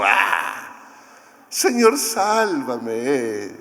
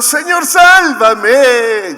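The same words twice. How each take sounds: First: A limp, casual sigh of a plea, no urgency; half-hearted plea. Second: Very high, loud and drawn-out plea for rescue; desperate cry. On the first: Retold or imitated. Mock contrast of a Pedro who is not really sinking, half-hearted plea. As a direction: ask to be saved as if it barely matters. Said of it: "Ya no era el Pedro así como". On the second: A narrator's reading. Sinking Pedro calling Jesus to save him, desperate slow shout. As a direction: cry out as you sink. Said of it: "Y gritó".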